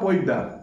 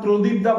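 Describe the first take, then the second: First: The sounds are squeezed together into two syllables. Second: Every sound of the name is said clearly. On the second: "শতকরা আশি ভাগ লোক আমার প্রদীপ দা বলে না"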